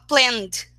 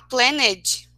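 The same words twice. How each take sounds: First: The ending is said as just a d sound. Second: The ending is said as an extra syllable. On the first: The speaker calls it right. "o ED é pronunciado só D. Então a gente corta o E dali" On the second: The speaker calls it wrong. "ao invés de falar planned"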